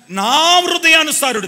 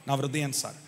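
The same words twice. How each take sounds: First: Loud, high and drawn out, first word stretched; ringing proclamation. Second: Soft, low and intimate; hushed repeat. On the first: Preacher announces God's verdict on David, proclaiming loudly. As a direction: proclaim it to the congregation. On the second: Preacher repeats God's words on David to the congregation, hushed. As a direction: let it sink in quietly. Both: Retold or imitated.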